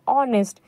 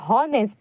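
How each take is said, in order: First: The word begins without an h sound. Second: The word begins with an h sound. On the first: "लेकिन हम पढ़ते हैं इसको ऑनेस्ट" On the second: "असल में लिखा है हॉनेस्ट"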